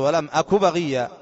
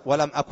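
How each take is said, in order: First: ولم أك بغية read in one flowing breath, no stop on أك; connected reading. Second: ولم أك ending with a full stop on أك; stopping on the word. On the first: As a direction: run ولم أك بغية together without pausing. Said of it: "تصل، تقول". (وصل دون وقف على أك) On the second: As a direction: stop dead after أك as if pausing the recitation. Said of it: "ما تقف تقول". (وقف على أك) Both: Shown as a demonstration.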